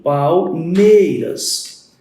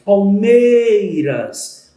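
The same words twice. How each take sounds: First: Palmeiras drawn out very slowly, syllable by syllable; slow syllable count. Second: Palmeiras said very slowly and louder, leaning on mei; stress on the tonic. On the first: Teacher scanning the verse for students, slow syllable count. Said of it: "Eu vou fazer a escansão". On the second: Teacher showing students the stressed syllable, louder and slow. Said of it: "A sílaba tônica é o meia". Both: Shown as a demonstration.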